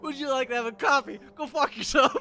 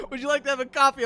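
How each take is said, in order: First: Loud, high, fast, laughing retort; mock rude reply. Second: High, loud prim lesson phrase; mock podcast Italian. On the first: Dog walker mocking the podcast with a rude reply. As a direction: throw back the line with a laugh. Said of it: "I'm like". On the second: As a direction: chirp it like a language tape. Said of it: "But it's just like".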